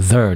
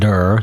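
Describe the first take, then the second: First: The word begins with a soft th sound. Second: The word begins with a hard d sound. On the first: The speaker calls it right. "It's a there" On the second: The speaker calls it wrong. "not der"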